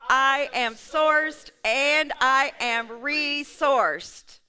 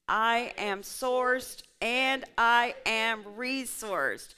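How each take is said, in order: First: It is said with much more zeal and energy. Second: It is said with ordinary, calm energy.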